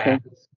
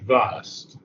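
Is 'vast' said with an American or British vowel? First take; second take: American; British. First: The word has a short, flat American vowel. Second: The word has a long, broad British vowel. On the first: The speaker calls it wrong. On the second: The speaker calls it right. "use the British pronunciation vast"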